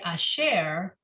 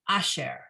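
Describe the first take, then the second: First: The stress is on the last syllable. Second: The stress is on the first syllable. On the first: The speaker calls it right. "you say asher" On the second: The speaker calls it wrong. "not asher"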